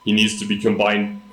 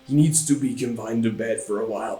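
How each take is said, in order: First: It is read in the speaker's normal voice. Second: It is said in an imitated doctor character voice.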